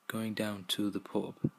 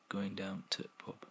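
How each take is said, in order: First: Every word is said in full. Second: 'The' is dropped and 'to' is clipped short. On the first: "going down to the pub would be shortened to" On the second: "and then finally to"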